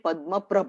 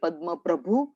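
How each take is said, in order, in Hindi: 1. दूसरा शब्द बिना अंतिम स्वर के खत्म होता है। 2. दूसरा शब्द 'u' स्वर पर खत्म होता है। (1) "छठे भगवान का नाम है पद्म प्रभ" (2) "हम लोग में से मोस्टली बोलते होंगे पद्म प्रभु"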